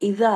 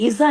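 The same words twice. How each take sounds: First: The middle consonant is a soft dh sound. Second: The middle consonant is a buzzing z sound. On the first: The speaker calls it right. "ज़बान को दाँत के बाहर निकालें थोड़ा" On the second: The speaker calls it wrong. "नहीं, इज़ा नहीं"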